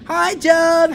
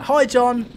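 First: It is said in a put-on voice. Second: It is said in a normal voice.

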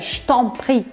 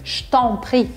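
Both takes have the same delivery.

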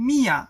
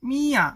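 The two takes are said the same way.

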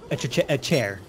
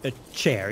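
First: A stuttered eh sound comes before the word. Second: The word is said plainly with no stutter. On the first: "you have to say eh before a word" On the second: "if you're saying"

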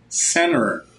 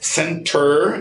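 First: The t in the middle is dropped. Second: The t in the middle is clearly pronounced. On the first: "E aquele T morre" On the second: "é mais puxado britânico"

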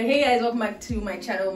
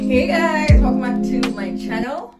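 First: The hey is said with toned-down energy. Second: The hey is said with too much energy.

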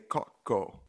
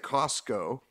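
First: The S sound in the word is dropped. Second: The S sound in the word is pronounced. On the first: This is how people say it locally. "They say Coco. S is silent" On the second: This is the standard way to say it. "they don't say Costco"

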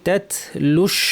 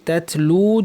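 First: The vowel is short and runs into sh. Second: The final vowel is held long before a stop. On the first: The reader continues into the next word. "যদি আমি মিলিয়ে পড়ি তাতলু, এই লাম গিয়ে শিনকে ধরবে" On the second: The reader stops after this word. "যদি আমি থেমে যাই তাহলে টান হবে"

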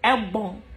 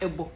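First: The word ends with an n sound. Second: The word ends without an n sound. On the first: The speaker calls it right. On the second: The speaker calls it wrong. "No, not ebo"

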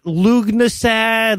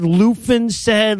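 First: The opening 'Lu' is followed by a g sound. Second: The opening 'Lu' is followed by an f sound. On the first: "not Lugnasad" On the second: "ways I've heard people murder the word"

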